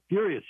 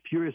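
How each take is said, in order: First: FURIOUS repeated higher and punched; stressed repeat. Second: Said in the usual way. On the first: Retold or imitated. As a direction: hit Furious. again, up high.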